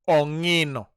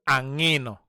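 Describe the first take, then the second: First: The word begins with an 'o' vowel. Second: The word begins with an 'a' vowel. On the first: "Some people say ongino" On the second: "Some people say angino"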